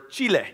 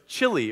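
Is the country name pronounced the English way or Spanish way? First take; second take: Spanish; English. First: The name is said with a Spanish pronunciation. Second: The name is said with an English pronunciation.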